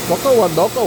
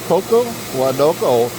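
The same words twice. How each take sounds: First: The phrase is said at a faster pace. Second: The phrase is said at a slower pace.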